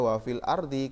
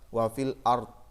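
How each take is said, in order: First: The last word ends with an added i vowel. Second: The last word ends on a bare consonant. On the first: The reading carries on past this word. The speaker calls it wrong. "Kenapa tidak dibaca wafil ardi?" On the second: The reading stops at this word. The speaker calls it right. "Harus berhenti pada lafaz wa fil ard"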